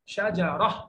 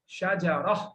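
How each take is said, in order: The two takes are said the same way.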